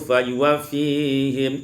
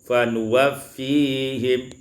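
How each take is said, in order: First: A y sound follows the first syllable. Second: An n sound follows the first syllable.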